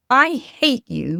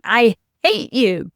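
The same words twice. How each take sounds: First: Slow I hate you with the I drawn out and lifted; stress on I. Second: Slow, loud I hate you leaning on hate; mock tantrum, hate hit hard and falling; imitating child's outburst. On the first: Shown as a demonstration. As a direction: lean into the I, then let it fall. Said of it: "might mean". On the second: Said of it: "then came the big one".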